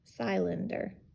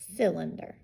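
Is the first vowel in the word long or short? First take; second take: long; short. First: The first syllable is open, with a long vowel. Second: The first syllable is closed, with a short vowel. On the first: The speaker calls it wrong. "this is going to be open because we're ending there ... No, that doesn't sound right" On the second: The speaker calls it right. "that's going to make it close ... That sounds better"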